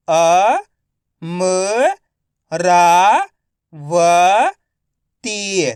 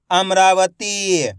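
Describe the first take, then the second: First: Amravati drawn out slowly, अ-म-रा-व-ती; slow syllable by syllable. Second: Said in the usual way. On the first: Shown as a demonstration. (धीरे-धीरे अक्षर-अक्षर बोलें)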